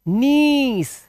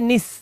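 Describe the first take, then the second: First: The vowel is long. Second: The vowel is short. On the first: The speaker calls it right. "ई लंबा लेना" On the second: The speaker calls it wrong. "ना कि निस"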